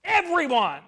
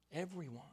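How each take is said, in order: First: A full-voiced, high call to everyone; loud proclamation. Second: Soft, intimate repeat of the word; quiet echo. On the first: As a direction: boom the word out to the whole room. Preacher's loud opening proclamation. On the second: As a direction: drop it softly after the big call. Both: Real, not acted.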